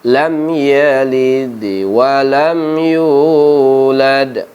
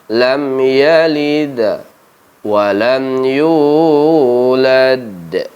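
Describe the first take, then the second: First: The bounce after the d leans toward i. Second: The bounce after the d leans toward a. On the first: It follows the vowel before the letter. "Kalau di mazhab Samannudi ini mengikuti baris sebelum huruf qalqalahnya" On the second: It follows the majority of scholars. "Kalau di jumhur ulama"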